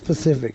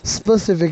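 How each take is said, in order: First: The word begins with a plain p sound. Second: The word begins with an added s sound. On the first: The speaker calls it right. "it is Pacific" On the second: The speaker calls it wrong. "the way I kind of pronounce it, but that's just my motherfucking speech impediment"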